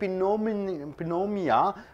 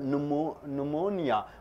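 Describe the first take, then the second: First: The initial P sound is pronounced. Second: The initial P sound is silent. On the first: The speaker calls it wrong. "You don't say pneumonia" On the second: The speaker calls it right. "P is silent. It is called pneumonia"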